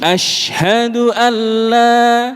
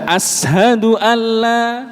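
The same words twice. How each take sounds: First: The word has a 'sh' sound after the vowel. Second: The word has a plain 's' sound after the vowel. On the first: The speaker calls it right. "Harusnya kan ashin" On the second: The speaker calls it wrong. "Mboten shin tetapi sin"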